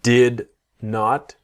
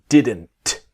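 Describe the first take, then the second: First: It is said as two full separate words. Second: It is one contracted word with a silent T. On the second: "the T is silent"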